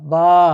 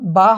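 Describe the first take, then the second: First: The vowel is drawn out long. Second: The vowel is short and not drawn out. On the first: "এক আলিফ দীর্ঘ হবে, দীর্ঘ করে পড়তে হবে" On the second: "আমরা যদি এখানে ফাতহা দিই তো ব আ বা হবে"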